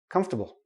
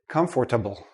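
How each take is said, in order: First: The word is squeezed into three syllables. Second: The word is said with all four syllables. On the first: The speaker calls it right. "We say comf, ta, bull" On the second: The speaker calls it wrong. "Many students say comfortable"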